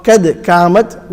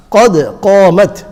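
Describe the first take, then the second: First: Thin front k on قَدْ and قَامَتْ; incorrect small qaf. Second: Heavy rounded q on both قَدْ and قَامَتْ; two big qafs. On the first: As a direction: say قَدْ قَامَتْ lightly as "ked kaamat". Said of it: "would be incorrect". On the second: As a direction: say قَدْ قَامَتْ full-mouthed, "qod qoomat". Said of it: "there's two qafs". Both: Shown as a demonstration.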